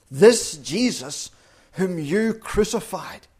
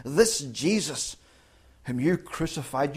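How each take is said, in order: First: This Jesus said loud and slow, with a high push on you; slow, loud stress on this and you; emphatic stress. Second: This Jesus said slowly and held back, with light stress on you; slow and softer on This Jesus whom you crucified; restrained, slow stress on This and you; quieter slow emphasis. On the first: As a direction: hammer the words this Jesus and you. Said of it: "It's emphatic". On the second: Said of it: "Peter really presses it home". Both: Shown as a demonstration.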